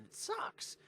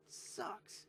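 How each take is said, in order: First: High, whispered pained whine; whiny groan. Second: High whispered whimper, softer; softer whiny groan. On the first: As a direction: whine it like it physically hurts. Pained sports fan groan. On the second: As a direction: let it fade into a whimper. Repeats lament softer. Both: Real, not acted.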